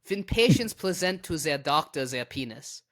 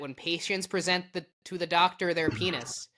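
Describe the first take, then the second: First: It is read in a put-on German accent. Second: It is read in the speaker's ordinary accent. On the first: The speaker calls it right. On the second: The speaker calls it wrong.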